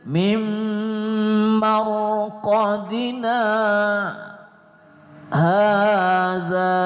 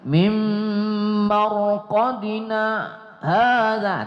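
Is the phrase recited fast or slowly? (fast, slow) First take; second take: slow; fast. First: The phrase is recited more slowly and deliberately. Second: The phrase is recited quickly without lingering. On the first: "lebih ke sedikit" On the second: "kalau kita cepat-cepat ... itu cepat ya"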